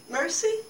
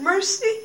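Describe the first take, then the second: First: Mercy? lifted high into a soft question; asking a question. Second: Mercy? rising higher still, pleading; asking a question. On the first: Pilate at the funeral asks softly, rising question. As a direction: let Mercy? rise high and hushed, asking. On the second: Pilate at her granddaughter's funeral pleads, rising question. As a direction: lift Mercy? up as a plea. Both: Acted. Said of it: "Now she was asking a question".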